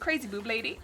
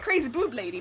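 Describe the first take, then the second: First: It is said with doubtful disapproval. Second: It is said with excited approval. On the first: The listener dislikes the idea. "some people probably like, mm" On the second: The listener likes the idea. "some people probably like, oh heck yeah"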